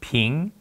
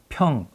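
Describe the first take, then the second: First: The syllable is read with the Mandarin pronunciation. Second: The syllable is read with the Korean pronunciation. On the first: "중국어로 발음하면" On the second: "같은 울림의 소리인데"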